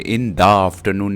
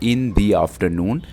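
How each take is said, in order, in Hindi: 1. 'the' शब्द को छोटे 'thuh' की तरह बोला जाता है। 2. 'the' शब्द को लंबे 'thee' की तरह बोला जाता है। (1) "इन द आफ्टरनून नहीं पढ़ेंगे, ये गलत हो जाएगा।" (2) "वॉवेल है, हम इसको इन दी आफ्टरनून"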